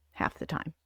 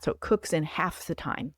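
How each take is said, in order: First: Half the time, breathed out in a whisper; whispered echo. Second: Said in the usual way. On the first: Shown as a demonstration. Whispering it again to her viewers. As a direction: whisper the repeat like an aside.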